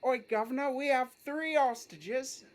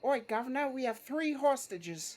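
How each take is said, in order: First: Put-on cockney accent. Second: A cheeky London crook announcing hostages; cockney accent. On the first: To the police, a cockney robber repeating his line. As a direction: announce the hostages like a London crook, taking the note to drop the H. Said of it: "Man, that's good". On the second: Acted. To the police during the bank job, cockney accent. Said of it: "That's amazing".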